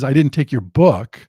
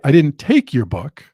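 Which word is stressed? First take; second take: book; take. First: The stress falls on the word book. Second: The stress falls on the word take. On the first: Something else was taken. "I took your computer, I took your wallet, I took something else" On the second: It was borrowed, not taken. "it could mean I borrowed it, but I didn't take it"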